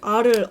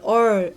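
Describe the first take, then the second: First: The letter name is said with an 'ah' vowel. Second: The letter name is said with an 'uh' vowel. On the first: "알을 얼 이러고 발음하거든요" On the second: "얼 이러고 발음하거든요"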